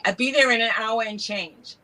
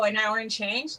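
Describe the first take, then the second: First: Imitating local New York talk; lightly put-on New York accent. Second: Said in the usual way. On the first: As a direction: quote it like a New Yorker. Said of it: "this is what they'd say". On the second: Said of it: "I go".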